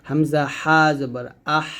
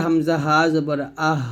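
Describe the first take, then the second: First: Slow আহ with a tightened mid-throat h; slower Hamza হা জবর আহ, narrowed h; narrow squeezed breath. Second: আহ with light air from the start of the throat; Hamza হা জবর আহ at normal pace, light breath; thin light breath. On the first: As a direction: draw out আহ on a fine stream of air. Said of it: "চিকন বাতাস বের করতে হবে". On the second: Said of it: "গলা শুরু থেকে পাতলা বাতাস". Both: Shown as a demonstration.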